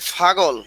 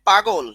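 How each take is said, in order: First: The word begins with a breathy ph sound. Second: The word begins with a plain p sound. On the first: "অনেকে বলে ফাগল" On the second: "এই হলো শুদ্ধ পাগল"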